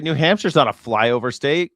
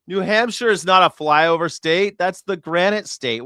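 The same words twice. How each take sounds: First: Said in the usual way. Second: Louder, higher insistence; emphatic. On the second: Real, not acted. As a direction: insist on it, raising the voice. Repeats the correction louder.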